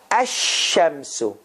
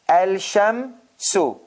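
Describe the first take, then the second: First: No L sound; the sh is doubled. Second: An L sound is heard before the sh. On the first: The speaker calls it right. "You have to say ash shamsu. Do you hear lam sound in it?" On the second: The speaker calls it wrong. "But it is not correct the way I'm pronouncing"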